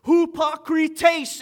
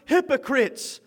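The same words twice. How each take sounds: First: Hypokrites said slowly as hoo-pah-kree-tays; Greek pronunciation. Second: Said in the usual way. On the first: Shown as a demonstration. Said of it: "in the Greeks". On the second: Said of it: "hypokrites in the Greeks".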